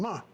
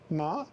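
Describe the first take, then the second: First: The pitch falls sharply from high. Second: The pitch rises from middle to high. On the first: It means to scold. "ma is to scold or criticize someone" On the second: It means hemp. "Ma is uh, um, hemp"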